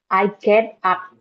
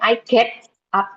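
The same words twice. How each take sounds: First: The t in get sounds halfway to d. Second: The t in get is a clear t. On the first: The speaker calls it right. "antara T sama D" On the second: The speaker calls it wrong. "jadi bukan I get up gitu"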